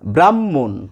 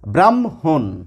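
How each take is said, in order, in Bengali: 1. h ধ্বনি নেই; দ্বিত্ব m শোনা যায়। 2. m ধ্বনিটি h-এর আগে আসে। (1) "দুটি ম উচ্চারিত হয় আমাদের সাধারণ কথাবার্তার সময়" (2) "একটু শুদ্ধ করে বলার চেষ্টা করি ... মটি আগে এসেছে, হটি পরে গেছে"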